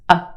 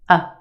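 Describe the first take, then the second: First: The vowel is a quick, reduced schwa. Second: The same.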